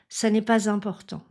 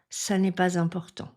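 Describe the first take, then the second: First: A z sound links pas to important. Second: A z sound links pas to important.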